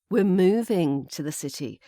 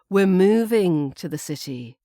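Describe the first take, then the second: First: The stress falls on the word moving. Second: The same.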